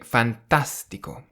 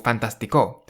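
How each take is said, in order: First: The stress falls on the syllable 'tas'. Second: The stress falls on a syllable other than 'tas'. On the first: The speaker calls it right. "So you say fantástico" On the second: The speaker calls it wrong. "rather than fantastico"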